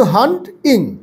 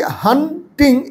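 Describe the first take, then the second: First: "হান্টিং" broken as hant-ing, T kept with hant; split by root. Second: "হান্টিং" broken as han-ting, T starting second syllable; split as spoken. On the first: Teacher correcting the syllable division, "হান্টিং" as hant-ing. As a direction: pause inside "হান্টিং": hant, then ing. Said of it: "কিন্তু হান্টিং". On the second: Teacher showing how we say it, "হান্টিং" as han-ting. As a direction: pause inside "হান্টিং": han, then ting. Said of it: "এরকম উচ্চারণ করি". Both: Shown as a demonstration.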